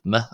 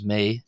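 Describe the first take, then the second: First: The vowel is short. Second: The vowel is long. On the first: "shortened just to a short e sound" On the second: "the long accent"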